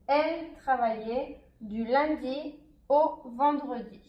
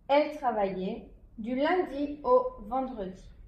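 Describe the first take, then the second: First: It is spoken at a slower pace. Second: It is spoken at a faster pace.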